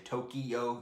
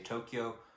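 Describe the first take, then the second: First: It is said as three firm syllables. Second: It is said as two syllables. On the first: The speaker calls it wrong. "don't say Tokyo ... three firm ones" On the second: The speaker calls it right. "they say Tokyo, like it's two syllables"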